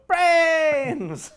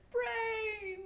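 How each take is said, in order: First: High loud zombie cry "Brains!"; zombie shout. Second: Zombie groaning "Brains!" high and far; zombie moan. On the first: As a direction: howl "Brains!" like a hungry zombie. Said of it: "made me wanna go". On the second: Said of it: "I picked up that vibe when you said". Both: Retold or imitated.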